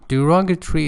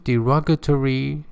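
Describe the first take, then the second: First: It is said in a British accent. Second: It is said in an American accent. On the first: "is British" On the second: "is American"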